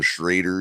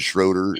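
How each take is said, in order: First: The vowel is an 'ay' sound. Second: The vowel is an 'oh' sound. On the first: This is how people commonly said it. The speaker calls it wrong. "everybody kept calling him Schrader" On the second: This follows the spelling with O E. The speaker calls it right. "should have been Schroeder"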